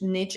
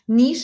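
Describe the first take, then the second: First: The word is said with an American pronunciation. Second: The word is said with a British pronunciation. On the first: "niche is American" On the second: "Niche is British"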